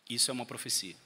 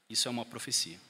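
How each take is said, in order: Both takes have the same delivery.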